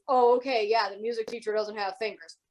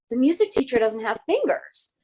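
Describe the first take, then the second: First: Lightly dismissive mock agreement; disbelieving. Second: Lightly voiced child telling the teacher; a hint of an earnest pupil breaking news; kids reporting. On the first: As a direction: humour the kids without believing a word. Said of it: "Did not believe her kids".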